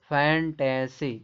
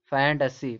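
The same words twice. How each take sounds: First: "फैंटेसी" drawn out as fan-tay-see; "फैंटेसी" stretched syllable by syllable; spelled-out syllables. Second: "फैंटेसी" as FAN-tuh-see; "फैंटेसी", middle vowel reduced; correct pronunciation. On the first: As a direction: slowly say "फैंटेसी" with a full middle e. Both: Shown as a demonstration. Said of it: "फैंटेसी पढ़े".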